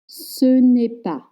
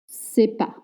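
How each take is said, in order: First: The ne sound is fully pronounced. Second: The ne sound is dropped entirely. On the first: "Same for ce n'est pas" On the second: "It's often pronounced c'est pas"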